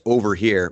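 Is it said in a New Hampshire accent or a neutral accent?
neutral. It is said in a neutral accent.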